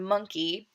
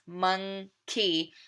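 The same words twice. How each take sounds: First: Said in the usual way. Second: "monkey" broken into two parts, mon-key; split into syllables. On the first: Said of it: "say it again by breaking it down like this". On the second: Shown as a demonstration. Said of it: "by breaking it down like this".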